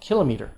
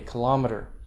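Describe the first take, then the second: First: The stress is on the first syllable. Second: The stress is on the second syllable. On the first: This is the older way of saying it. "It's an older pronunciation. ... because it's like kilogram" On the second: This is the more common way of saying it today. "that's the more common pronunciation today"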